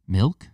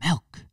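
First: "Milk" with a clear i, mill-k, louder; right pronunciation. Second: "Milk" as melk, higher pitch; mocked pronunciation. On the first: Showing viewers the right "Milk" with a short i. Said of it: "I say milk". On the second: Mocking viewers who say "Milk" as melk. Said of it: "if you say milk, it drives me nuts". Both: Shown as a demonstration.

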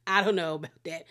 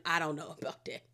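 First: Said in the usual way. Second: Softer, lower doubtful aside; doubtful mutter. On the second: Real, not acted. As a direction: say it under your breath, unconvinced.

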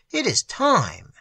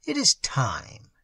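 First: Slow and higher, the moment has come; urgent old magician. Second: Put-on slow, grave old magician; slow solemn old magician. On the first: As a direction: announce it, slowly and high. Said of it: "said the old man". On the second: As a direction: say it slowly, like a solemn summons. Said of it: "said the old magician". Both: A narrator's reading.

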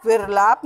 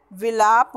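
First: विरलाप with an added r, "vir-laap"; wrong pronunciation. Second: विलाप with no r, "vi-laap"; correct pronunciation. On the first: Teacher rejects the faulty word, विरलाप with extra r. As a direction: push an r before the l in विरलाप. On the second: Teacher corrects the faulty word, r-less विलाप. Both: Shown as a demonstration. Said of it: "नहीं होता".

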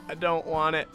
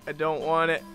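The two takes are said the same way.

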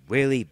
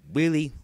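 No difference in how they are said.

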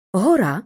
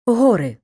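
First: Гора with stress on the final а, said louder; final-syllable stress in Гора; stress demo. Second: Гори with stress on the first о: ГОри; stress demo. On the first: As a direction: land on the last syllable: гоРА. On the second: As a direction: hit the first syllable of гори, louder. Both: Shown as a demonstration. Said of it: "наголос може падати на будь-який склад".

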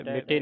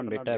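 First: ਮਿਟੇ with a closed "ay" ending; ਮਿਟੇ said as mi-tay; mistaken e ending. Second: ਮਿਟੈ with a wide open "eh" ending; ਮਿਟੈ, last vowel open. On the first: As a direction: end ਮਿਟੇ on a narrow e. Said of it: "ਮਿਟੇ ਨਹੀਂ ਪੜ੍ਹਨਾ". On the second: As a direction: end ਮਿਟੈ on a broad ai. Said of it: "ਮਿਟੈ ਪੜ੍ਹਨਾ". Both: Shown as a demonstration.

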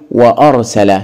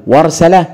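First: "وأرسل" as "wa-arsala" with a glottal stop after wa; hamza pronounced. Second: "وارسل" run together as "warsala", no glottal stop; hamza dropped. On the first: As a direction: break between wa and ar in "وأرسل". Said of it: "إذا ننطقها بالهمزة ونقول". (نطق «وأرسل» بهمزة قطع واضحة بعد الواو) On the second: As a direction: glide from wa straight into r in "وارسل". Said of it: "إذا ننطقها بالهمزة". (نطق «وارسل» موصولة بدون همزة) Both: Shown as a demonstration.

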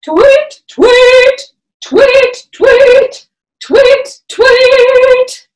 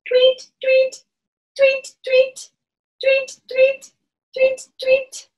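First: High, loud bright tweets; mama bird call. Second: Put-on peeping baby chick. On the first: Pretend. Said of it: "come into our mama bird". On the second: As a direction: chirp it like a tiny chick. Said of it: "You sound like a baby bird".

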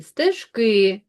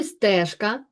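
First: Стежки with a long stressed final КИ; stress on last syllable. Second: Стежка with the е of СТЕЖ stressed; stress on first syllable. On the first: Teacher contrasting word forms for pupils, stress moved to the end. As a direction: stretch the ending of Стежки. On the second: Teacher setting the word against its other form, first syllable stressed. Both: Shown as a demonstration. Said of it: "наголос буде падати на неї".

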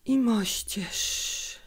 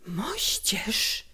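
First: Slow, drawn-out, barely audible whisper; a sick mother whispering with effort; very quiet whisper. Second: Hushed, disbelieving echo; whisper. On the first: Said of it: "szepnęła tak cicho". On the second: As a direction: whisper it back as a question. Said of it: "powtórzyłem szeptem". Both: A narrator's reading.

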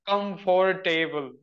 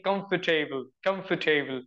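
First: Comfortable said in four syllables, com-for-TAY-ble; comfortable stretched into four full syllables; old four-syllable comfortable. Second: Comfortable said in three syllables, COMF-ta-ble; comfortable in three quick syllables. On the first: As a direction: spell out comfortable slowly as com-for-table, every syllable full. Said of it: "I used to say ... But after that, I started saying". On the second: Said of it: "So in three syllables". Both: Shown as a demonstration.

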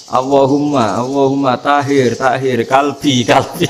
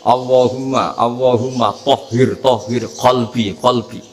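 First: "kalbi" with a plain front k, no qaf, "tahir" with a thin t; mock the mispronounced prayer, "tahir, kalbi" with a light k; imitating the wrong way. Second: "kolbi" with a deep back qaf, slow and careful; careful prayer with qaf in "kolbi"; correct Arabic recitation. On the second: Shown as a demonstration. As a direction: say "tohir, kolbi" with a full qaf from the throat. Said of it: "Orang Indonesia kalau dongo ya".

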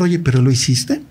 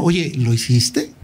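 First: Said in the usual way. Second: Slow, drawn-out Oye, genuinely doubtful question; showing doubt. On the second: Shown as a demonstration. Asking an accused man if he did it, slow and doubtful. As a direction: let the doubt sit in the question, slowly. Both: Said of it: "mostrar esta duda".

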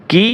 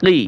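First: "কি" as a simple "kee"; light kaf sound. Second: "কি" with an Arabic uvular q; deep qaf sound. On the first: Teacher contrasts kaf and qaf, "কি" with light k. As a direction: say "কি" with a forward k. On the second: Teacher contrasts qaf and kaf, "কি" with back q. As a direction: form "কি" far back at the uvula. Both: Shown as a demonstration. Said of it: "একটা উচ্চারণ ও প্রায় অন্যটার সাথে মিলে যায়".

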